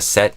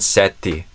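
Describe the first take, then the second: First: The T sounds like the speaker's usual expectation. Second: The T sounds like a northeastern Brazilian accent.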